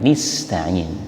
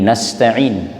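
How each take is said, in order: First: The first vowel is a close i sound. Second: The first vowel is an open a sound. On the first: This is the reading of only two reciters. "tetapi dibaca kasrah" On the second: This is the reading of almost all reciters. "yang awal dibaca dengan fathah"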